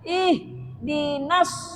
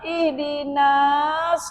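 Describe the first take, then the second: First: The vowel after n is kept short. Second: The vowel after n is drawn out long. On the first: The speaker calls it right. "Bacanya ihdinas sirah" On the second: The speaker calls it wrong. "Jangan dipanjangkan. ... ihdinas enggak boleh"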